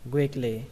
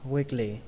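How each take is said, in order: No difference in how they are said.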